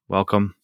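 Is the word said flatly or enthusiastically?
flatly. It is said flatly, without much excitement.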